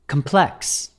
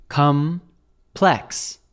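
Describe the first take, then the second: First: Said in the usual way. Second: "Complex" slowly split into two syllables, com, then plex; syllable-by-syllable pronunciation. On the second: Shown as a demonstration. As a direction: say "Complex" in two separate, drawn-out syllables for a learner. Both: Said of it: "American pronunciation of complex".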